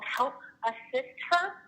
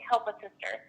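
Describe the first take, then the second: First: The three words are said separately and clearly. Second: The words are run together quickly, like one phrase. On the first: "it's like three words" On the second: "when you say it fast over the phone, it sounds like"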